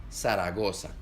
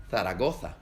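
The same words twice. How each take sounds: First: Zaragoza with every z as a plain s, Latin American way. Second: Zaragoza with both z's as a lisped th, Castilian way; Spain Spanish Zaragoza. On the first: Teacher demonstrates the Latin American s in Zaragoza. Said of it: "en Latinoamérica suena como S". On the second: Teacher demonstrates the Castilian th in Zaragoza. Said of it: "en España suena como Z". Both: Shown as a demonstration.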